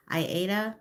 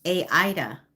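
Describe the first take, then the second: First: "Aida" whispered, said eye-AY-tuh; unsure whisper of "Aida", eye-AY-tuh; first try at the name. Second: "Aida" said aloud, AY-eye-tuh; "Aida" settled on as AY-eye-tuh, falling; firm voiced "Aida", AY-eye-tuh; second try at the name. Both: Shown as a demonstration. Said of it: "Aida or".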